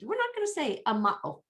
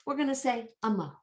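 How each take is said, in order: First: High-pitched put-on protest; mock refusal. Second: Quick, raised put-on voice; mock decision. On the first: Teacher voicing those who dropped the A, high mock refusal. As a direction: refuse in a silly high voice, easing down. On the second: Teacher voicing those who chose amo, brisk mock decision. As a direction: announce it briskly for the objectors. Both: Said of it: "They just said".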